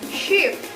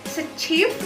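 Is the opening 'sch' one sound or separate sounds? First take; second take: one sound; separate sounds. First: The opening letters are said as one sh sound. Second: The opening letters are said as separate sounds. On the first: The speaker calls it right. "diucapkan sh" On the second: The speaker calls it wrong. "Jadi bukan se-shift dibacanya"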